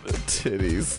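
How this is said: It sounds ashamed.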